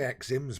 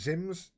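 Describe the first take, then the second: First: The name begins with an 'eks' sound. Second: The name begins with a 'z' sound. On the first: "I want to say Exims, but I'm, I'm sure it's not pronounced like that" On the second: "Would it be Zims?"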